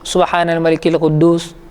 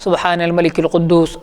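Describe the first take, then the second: No difference in how they are said.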